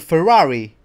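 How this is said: It is said with a British accent.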